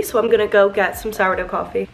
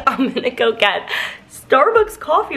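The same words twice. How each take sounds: First: Said in the usual way. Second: Corrected with a laugh. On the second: Real, not acted. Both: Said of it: "did I just say sourdough coffee?".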